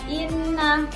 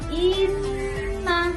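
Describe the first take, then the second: First: The n sound is short and not held. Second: The n sound is held long and nasal. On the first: The speaker calls it wrong. "jangan inna, bukan" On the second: The speaker calls it right. "Yang benar inna"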